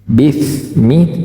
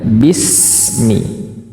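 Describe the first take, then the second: First: The s is made with a th-like sound. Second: The s is a clean, clear s sound. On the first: The speaker calls it wrong. "bukan pakai sa sehingga bunyinya bifmi" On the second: The speaker calls it right. "tapi bismi, bersih sekali"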